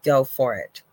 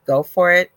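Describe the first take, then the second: First: Said in the usual way. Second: Louder, higher, urging go for it; emphatic encouragement. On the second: Real, not acted. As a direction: push the listener to go for it. Repeats encouragement more forcefully.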